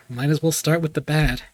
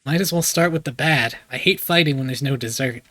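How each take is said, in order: First: Said in the usual way. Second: Put-on light southern American accent; game line in mild southern accent. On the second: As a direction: lay on a slight Southern accent. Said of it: "Just do a southern accent".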